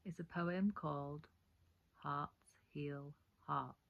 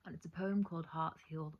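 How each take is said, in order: First: "Hearts Heal Hearts" spelled out very slowly, word by word; slow right down and place each word of "Hearts Heal Hearts"; slow careful correction. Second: Said in the usual way. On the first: Shown as a demonstration. Poet correcting her title to viewers: very slow and deliberate. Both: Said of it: "It's a tongue twister".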